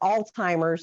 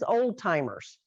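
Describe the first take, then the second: First: It begins with 'alts' and an 'h' sound. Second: It begins with 'old' and a 't' sound. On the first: The speaker calls it right. "So it's Alzheimer's" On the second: The speaker calls it wrong. "is often mispronounced as old timers"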